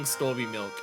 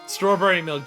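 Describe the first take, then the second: First: The first word is cut down to two syllables. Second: The first word is said with all three syllables. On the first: "a very common one that I've come across, and I love it" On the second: "strawberry milk just being Storby milk"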